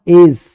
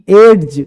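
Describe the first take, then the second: First: No separate d sound comes before the j. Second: A separate d sound comes before the j. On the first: The speaker calls it right. "D silent हो जाता है" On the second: The speaker calls it wrong. "एड्ज नहीं पढ़ना"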